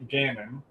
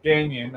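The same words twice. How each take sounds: First: "Gannon" said GAN-un; tentative "Gannon" as GAN-un, rising; trying a pronunciation. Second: "Gagnon" said GAN-yun; tentative "Gagnon" as GAN-yun; trying a pronunciation. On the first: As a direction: say "Gannon" without y or inner g. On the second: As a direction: say "Gagnon" with an ny sound, silent g. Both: Real, not acted. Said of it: "I think is his name".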